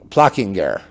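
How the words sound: The name is said with a German pronunciation.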